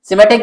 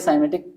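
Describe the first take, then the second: First: The first syllable has a short 'i' vowel. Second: The first syllable has an 'ai' vowel. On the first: "सिमेटिक भी बोला जाता है" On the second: "दोनों तरह से साइमेटिक भी बोला जाता है"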